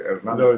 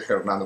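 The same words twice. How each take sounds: First: The word begins directly with the vowel. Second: The first sound is an audible H. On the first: "we don't pronounce the H's" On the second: "we don't say Hernando"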